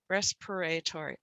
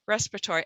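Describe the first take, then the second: First: A middle vowel is pronounced as a clear 'eh'. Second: A middle vowel is left out entirely. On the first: The speaker calls it wrong. "we're going to try the eh sound" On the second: The speaker calls it right. "we're not even going to say the vowel"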